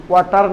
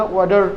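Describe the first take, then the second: First: "ওয়াটার" with a hard T in the middle. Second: "ওয়াটার" with the T softened to a D. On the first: Teacher showing the version to avoid, "ওয়াটার" with hard T. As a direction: say "ওয়াটার" with a clearly sounded T. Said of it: "ওয়াটার না". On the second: Teacher correcting learners, "ওয়াটার" with a D sound for T. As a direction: say "ওয়াটার" like "wader". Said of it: "টিটা ডি তে উচ্চার". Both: Shown as a demonstration.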